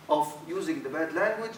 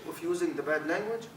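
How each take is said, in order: Both takes have the same delivery.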